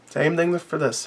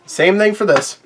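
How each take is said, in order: First: "Same thing for this" dropped to a soft murmur to himself; quiet echo. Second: Said in the usual way. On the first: Real, not acted. Reviewer trailing off to himself, softly repeating. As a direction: let "thing" fade away, much softer.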